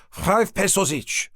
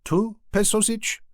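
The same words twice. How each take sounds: First: Slow, grinning sales pitch; name the price with a smile. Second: Slow, high, tentative haggling question; hopeful. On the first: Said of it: "Still grinning". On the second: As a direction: drop the price, unsure now. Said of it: "dropped both smile and the price". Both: A narrator's reading.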